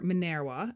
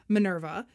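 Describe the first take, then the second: First: It is pronounced the classical Latin way. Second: It is pronounced the ordinary English way.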